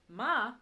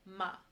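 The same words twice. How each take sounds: First: The pitch dips and curves back up. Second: The pitch stays high and level throughout. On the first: It means horse. "which has that curve" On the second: It means mother. "it's high, it's flat, it doesn't rise, it doesn't fall"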